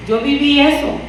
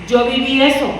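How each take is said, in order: Both takes have the same delivery.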